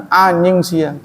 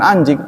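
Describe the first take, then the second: First: "anjing sia" pitched up, first vowel stretched into "aanying"; NY instead of J. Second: Said in the usual way. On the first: Shown as a demonstration. Teacher contrasting Bandung slang, "anjing" pronounced "anying". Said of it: "jadi N Y". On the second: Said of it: "Bukan anjing".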